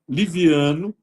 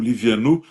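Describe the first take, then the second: First: The stress is on the second-to-last syllable. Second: The final syllable is stressed and clearly marked. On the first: "a pronúncia é paroxítona" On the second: "eu acentuo o Livianu para não haver risco de escrever com o"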